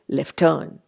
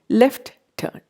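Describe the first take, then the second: First: One t sound is dropped between the words. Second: Both t sounds are pronounced separately. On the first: The speaker calls it right. "we delete it and we end up saying left turn" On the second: The speaker calls it wrong. "We don't say left turn"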